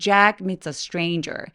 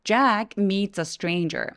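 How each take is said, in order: First: The vowels are long, drawn out and relaxed. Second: The vowels are long, drawn out and relaxed.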